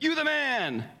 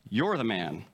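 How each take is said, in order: First: It is said in an enthusiastic, praising tone. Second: It is said in a serious, accusing tone. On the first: The listener is being complimented. The speaker calls it wrong. "Except no" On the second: The listener is being accused of wrongdoing. The speaker calls it right. "Tone of voice is important"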